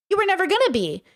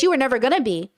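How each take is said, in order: First: Repeated higher for emphasis; pitched-up insistent repeat; emphatic higher repeat. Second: Said in the usual way. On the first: Real, not acted. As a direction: say it again, pushing it up.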